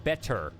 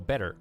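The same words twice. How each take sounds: First: Both the T and the final R are full. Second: The T is soft and the final R is full. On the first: "it's weird to go from the full T to the full R" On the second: "we pronounce our R's R ... we put less emphasis on the T"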